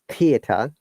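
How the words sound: It is said in a British accent.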